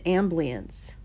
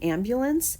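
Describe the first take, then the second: First: The word is said with sounds dropped. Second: The word is said in full, all syllables. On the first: The speaker calls it wrong. "they said ambience" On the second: The speaker calls it right. "instead of saying ambulance"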